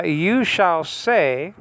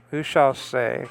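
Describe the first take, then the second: First: You shall say drawn out slowly, rising on You; slow reading. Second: Said in the usual way. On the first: Shown as a demonstration. Teacher reading the verse aloud to students, slow. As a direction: read the verse slowly and deliberately.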